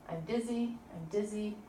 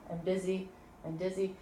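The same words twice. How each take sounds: The two takes are said the same way.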